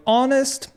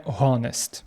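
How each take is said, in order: First: HONEST said without any H sound, starting on the vowel; silent H. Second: HONEST wrongly said with an audible H at the front; sounded H. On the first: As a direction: drop the H in "honest", begin straight on O. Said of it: "буква H не читається на початку". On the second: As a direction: pronounce the H in "honest", like "honest" with a breathy Ukrainian Г. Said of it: "а не honest". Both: Shown as a demonstration.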